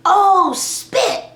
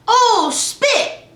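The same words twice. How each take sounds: First: "Oh, spit." sung high and bright with a rising "oh"; oh spit, kid-friendly. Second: "Oh, spit." much higher, louder, rising "oh"; imitating daughter. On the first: Shown as a demonstration. Mom teaching the toddler a clean swap, high sing-song "Oh, spit.". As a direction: replace the curse with "Oh, spit." in a much higher, louder voice. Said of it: "So I had to say". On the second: Mom imitating her daughter's frustrated "Oh, spit." in a high voice. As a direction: play the little girl frustrated saying "Oh, spit.". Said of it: "So now Erica says".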